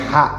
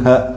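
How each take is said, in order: First: The h is made deep in the throat. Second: The h is a plain light breath. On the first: The speaker calls it right. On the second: The speaker calls it wrong. "bukan ha"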